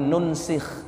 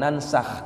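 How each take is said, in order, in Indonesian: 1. Vokal pertama adalah u, lalu i. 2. Vokal pertama adalah a, lalu a. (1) "bidhammin nun al-ula wa kasris sin" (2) "bukan nansakh"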